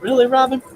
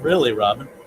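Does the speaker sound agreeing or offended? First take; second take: offended; agreeing. First: It sounds like an offended, incredulous challenge. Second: It sounds like agreement, not a challenge. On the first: The speaker takes offense at the other person. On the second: The speaker agrees with the other person. "I think Billy was agreeing with you. He wasn't offended. Probably saying"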